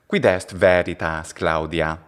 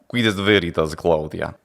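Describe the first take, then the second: First: It has ecclesiastical Latin pronunciation with a plain L. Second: It has a Bulgarian accent with a dark, velarized L. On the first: "with ecclesiastical pronunciation, I would say" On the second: "a Bulgarian accent in a way that this Pontius Pilate is delivering his lines"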